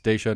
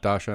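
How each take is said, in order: First: The first syllable sounds like 'day'. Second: The first syllable sounds like 'dah'. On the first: The speaker calls it right. "It's Daisha" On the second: The speaker calls it wrong. "not Dasha"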